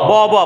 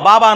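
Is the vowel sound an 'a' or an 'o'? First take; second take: o; a. First: Both vowels are pronounced as a rounded 'o'. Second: Both vowels are pronounced as an open 'a'. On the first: The speaker calls it right. "জাবারের পর আলিফ আছে, উচ্চারণ হবে অ" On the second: The speaker calls it wrong. "বাবা নয়"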